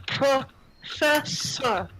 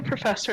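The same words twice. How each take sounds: First: Slow, broken into separate syllables; halting foreign word. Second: Said in the usual way. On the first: Acted. Girl points at the professor and names her, slowly, syllable by syllable. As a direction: sound out PROFESSOR piece by piece, drawn out. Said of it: "she points to you, Professor and goes". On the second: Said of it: "and goes".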